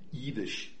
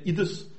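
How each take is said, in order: First: It has a long i and ends in sh. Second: It has a short i and ends in s. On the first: This is how most Polish dialects say it. "har et langt i. De siger jiddisch" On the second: This is how the Lithuanian dialect says it. "ides med kort i og med et s og ikke et sh til sidst"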